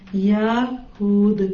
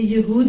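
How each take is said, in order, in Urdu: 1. یہ دو الفاظ میں کہا جاتا ہے، ya اور Hud۔ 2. یہ ایک لفظ میں کہا جاتا ہے، yahud۔ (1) "یا پہ زبر ہے" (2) "یہ یہود نہیں ہے"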